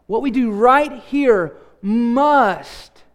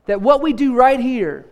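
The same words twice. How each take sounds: First: Slow build to a drawn-out "must"; "must" held long and set apart for emphasis; stress on must. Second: Said in the usual way. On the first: Real, not acted. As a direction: space out the words and land hard on "must". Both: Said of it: "let me emphasize the word must".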